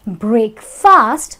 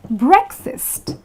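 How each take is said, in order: First: Both vowels are full, like two separate words. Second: Both vowels are reduced, sounding like "brek-fist". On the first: The speaker calls it wrong. "if you pronounce it as break fast, because it's like two words combined together, now that is going to be wrong" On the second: The speaker calls it right. "The correct thing is breakfast. So it'll be like break fist"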